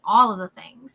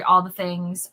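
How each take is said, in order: First: "all" said louder and drawn out; stress on all. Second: Said in the usual way. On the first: Shown as a demonstration. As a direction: lean hard on "all".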